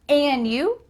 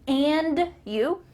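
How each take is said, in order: First: The D at the end of 'and' is dropped. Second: The D at the end of 'and' is pronounced. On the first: "the D is cut off. It's gone. So we're just going to say an" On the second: "Did I say and you?"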